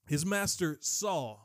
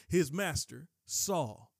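First: Said in the usual way. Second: "his master saw" drawn out slowly, each word weighed; slow down and land "his master saw"; slow, pointed repeat for the congregation; slow emphasis. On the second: Shown as a demonstration. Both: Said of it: "I want you to hear that".

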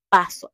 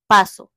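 First: Said in the usual way. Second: Louder, a flat-out dismissive "paso"; emphatic refusal. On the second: Real, not acted. Booktuber refusing tragic book recommendations, emphatic loud "paso". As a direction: shut the idea down hard. Refusing sad-ending books.

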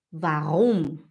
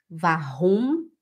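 First: Warum with a tapped R, falling at the end; tongue R. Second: Warum as "va-hum", rising at the end; throat R. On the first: Students asked to hear the difference, warum with tongue R. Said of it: "fala na língua". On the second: Students asked to hear the difference, warum with throat R. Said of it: "o R da garganta". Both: Shown as a demonstration.

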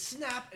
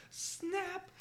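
First: Said in the usual way. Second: High squeaky snap. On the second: Acted. Genie snaps for third wish.

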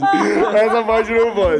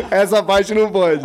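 First: Even slower, drawn-out laughing plea; slower laughing protest. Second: Slow, loud laughing refusal; laughing protest. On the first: Repeating his plea to cut the story, laughing slower. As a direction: stretch the plea out through laughter. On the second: Laughing at himself on the podcast, slow and loud. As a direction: laugh while begging to cut it. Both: Real, not acted.

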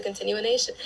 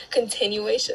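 First: Extra syllable in continuation, like "continu-a-nation"; stumbled pronunciation. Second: Said in the usual way. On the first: Real, not acted. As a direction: trip over continuation, adding a stray "na". Slip, then corrects the word.

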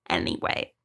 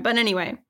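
First: A comic deep-voiced, quieter Anyway; deep mock anyway. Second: Said in the usual way. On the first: Closing her rant with a deep, quiet Anyway. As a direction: drop way down low and soft on Anyway.

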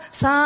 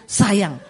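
First: "sayang" drawn out very long; long stroke. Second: A quick, plain "sayang"; short stroke. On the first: Showing how long hair gets stroked, drawn-out. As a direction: stretch the first syllable of "sayang" right out. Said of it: "kalau panjang kan". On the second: Showing how husband strokes short hair, short and quick. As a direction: say it short, over in one go. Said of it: "nggak usah panjang-panjang, cuma cukup". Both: Shown as a demonstration.

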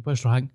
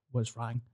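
First: Said in the usual way. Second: Quiet worried question. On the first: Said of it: "I was like". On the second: Retold or imitated. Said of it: "straight away I was like".

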